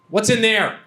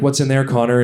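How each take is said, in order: First: Higher, testy mock question; pointed, mildly exasperated prompt; annoyed girlfriend. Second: Said in the usual way. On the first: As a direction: imitate a partner losing patience. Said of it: "she was getting kind of annoyed".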